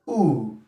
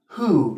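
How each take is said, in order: First: The initial H sound is dropped. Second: The initial H sound is pronounced. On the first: "take away the H there and say ooh" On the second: "who is the right pronunciation, is a standard pronunciation"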